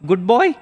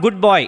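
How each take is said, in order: First: The voice rises at the end like a question. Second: The voice falls at the end like a statement. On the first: It is a doubting question. "with a different inflection in his voice. It was a question now" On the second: It is simple praise. "It was not "good boy,""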